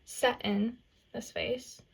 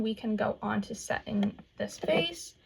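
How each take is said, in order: First: Slow, light Southern drawl on Set in this face; a playful hint of a Southern accent. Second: Said in the usual way. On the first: Shown as a demonstration. Vlogger teasing her viewers in a slow mock Southern accent. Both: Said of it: "My southern accent there".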